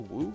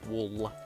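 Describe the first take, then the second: First: The word ends without an audible L sound. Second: The word ends with a strong, clear L sound. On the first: The speaker calls it wrong. "Did I say woo?" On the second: The speaker calls it right. "Emphasis on the L"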